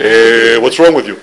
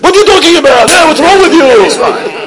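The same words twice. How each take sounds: First: Low, understated Israeli-style grumble; Hebrew-speaking GPS. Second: Screaming Israeli GPS. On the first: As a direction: lightly mimic an Israeli GPS complaining. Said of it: "Maybe in Hebrew". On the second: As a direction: yell like an exasperated Israeli navigation system. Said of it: "be an Israeli G P S". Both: Acted.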